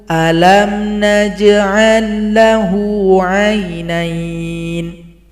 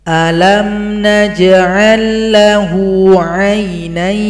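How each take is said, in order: No difference in how they are said.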